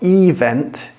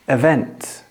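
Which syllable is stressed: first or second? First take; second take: first; second. First: The stress is on the first syllable. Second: The stress is on the second syllable. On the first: The speaker calls it wrong. "it's not event" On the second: The speaker calls it right. "on event, the stress is on the second syllable"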